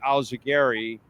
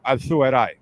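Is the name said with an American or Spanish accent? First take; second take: American; Spanish. First: It is said with an American accent. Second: It is said with a Spanish accent. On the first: It is simplified so people can manage it. "I Americanize it for people" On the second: This is the true, original pronunciation. "If you're gonna really say it, you know, como un gallego"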